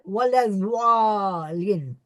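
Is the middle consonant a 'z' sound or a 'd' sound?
d. The middle consonant sounds like a 'd'.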